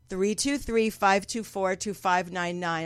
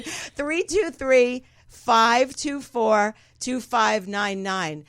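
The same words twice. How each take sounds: First: Said in the usual way. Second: Phone number spelled out very slowly; slow dictation. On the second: Real, not acted. Host giving listeners the call-in number, slow dictation. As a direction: announce each group slowly and deliberately.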